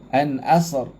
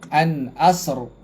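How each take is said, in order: Both takes have the same delivery.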